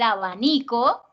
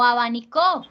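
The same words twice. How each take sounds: First: The stress is on the second-to-last syllable. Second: The stress is on the last syllable. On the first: It is the noun for a fan. "que es grave" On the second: It is the verb form meaning fanned. "que es aguda"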